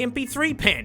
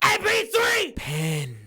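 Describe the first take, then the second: First: It is said in his ordinary speaking voice. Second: It is said in an exaggerated put-on voice.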